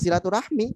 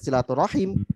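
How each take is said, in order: First: The word ends with the syllable 'mi'. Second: The word ends with the syllable 'him'. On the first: It follows the Indonesian reading. "cara pandangnya dengan bahasa Indonesia" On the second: It follows the Arabic reading.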